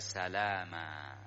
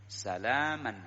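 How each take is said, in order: First: The word ends on an open vowel. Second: The word ends with an n sound. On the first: The reader stops on the word. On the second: The word is read on without stopping.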